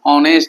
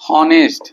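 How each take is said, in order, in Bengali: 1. শব্দটি h ধ্বনি ছাড়া শুরু হয়। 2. শব্দটি একটি স্পষ্ট h ধ্বনি দিয়ে শুরু হয়। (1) "মই যে ইমানখিনি সময়ত এই শব্দটো উচ্চাৰণ কৰি আছো কি কৈছো" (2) "h টোৰ উচ্চাৰণ হলে হ'ব"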